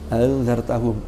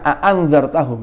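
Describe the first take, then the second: First: The second hamza is softened, not fully stopped. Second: The second hamza is fully pronounced as a stop. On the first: This is how the Quraysh tribe speaks. "Hamzah yang kedua dibaca tashil" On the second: This is how the Qais or Tamim tribes speak. "Orang Quraisy jarang a'anzartahum, enggak"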